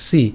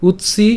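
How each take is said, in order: First: সি said alone as si; syllable split. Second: উৎসি joined as utsi, pitched up; joined syllables. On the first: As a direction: give সি on its own. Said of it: "তারপর". (সি আলাদা করে) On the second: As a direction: put উৎ and সি back together. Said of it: "তাহলে উৎসি". (উৎসি একসাথে) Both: Shown as a demonstration.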